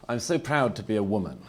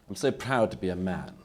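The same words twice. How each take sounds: First: A proud voice, raised and mocking; mock proud declaration. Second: Proudly declared, a little raised; mock proud declaration. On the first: Speaker mocking identity pride to a debate audience, mock proud declaration. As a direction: parody a self-congratulating speaker. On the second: Speaker mocking identity pride to a debate audience, mild mock pride. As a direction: parody a self-satisfied speaker. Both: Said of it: "The unsupportable phase is".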